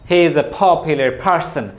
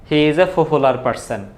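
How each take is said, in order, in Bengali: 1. p ধ্বনিগুলোতে জোরালো ফুঁ-এর বাতাস থাকে। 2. p ধ্বনিগুলো সাধারণ, ফুঁ-এর বাতাস ছাড়া। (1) "ইংরেজিতে আছে ফ।" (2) "আমরা স্বাভাবিক বাংলাদেশের অ্যাকসেন্টে যেভাবে বলি"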